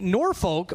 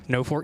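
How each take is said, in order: First: The name is said in the usual Norfolk way. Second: The name is said as two words, No Fork. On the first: This is how the name is said elsewhere. "anywhere else that'd be Norfolk" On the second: This is how the Nebraska town is said. "for Nebraska it's pronounced No Fork"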